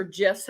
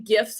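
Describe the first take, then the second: First: "gifs" with a soft g, like jifs. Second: "gifs" with a hard g as in gift. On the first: Offering viewers the other way, "gifs" with soft g. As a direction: say "gifs" starting like jam. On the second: Listing post types to viewers, "gifs" with hard g. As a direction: say "gifs" starting like give. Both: Shown as a demonstration. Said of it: "however you say it".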